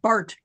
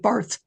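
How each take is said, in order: First: The word ends with a plain t sound. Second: The word ends with a th sound. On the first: This is how Germans say it. "the Germans pronounce it Bart" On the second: This is how English speakers say it. "We pronounce it Barth"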